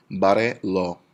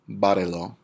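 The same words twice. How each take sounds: First: "barrelo" split ba-rre-lo, a little louder; deliberate beats on "barrelo"; syllable by syllable. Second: Said in the usual way. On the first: Shown as a demonstration. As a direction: sound out "barrelo" in separate syllables. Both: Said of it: "three syllables back".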